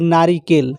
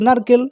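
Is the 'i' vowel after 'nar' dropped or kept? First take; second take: kept; dropped. First: The full word is said with the 'i' vowel. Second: The word is said quickly without the 'i' vowel. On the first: "এই শব্দটাকে উচ্চারণ করতে একটু আমাদের কষ্ট হয়" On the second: "আর যদি আমরা দ্রুত বলি নারকেল তাহলে এটা সুবিধা হয়"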